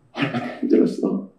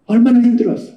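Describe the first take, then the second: First: Soft, voiceless, lower consolation; a father holding his son, barely voicing 얼마나 힘들었어; hushed tender father. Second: Louder aching consolation; a father repeating his comfort aloud; tender father, voiced. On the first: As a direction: murmur it close to his ear. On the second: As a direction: say 얼마나 힘들었어 fully voiced with feeling. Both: Father embracing returned son.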